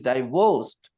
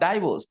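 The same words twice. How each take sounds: First: The stress is on the second syllable. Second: The stress is on the first syllable. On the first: The speaker calls it right. "The stress is on the second syllable" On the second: The speaker calls it wrong. "It's not divorced"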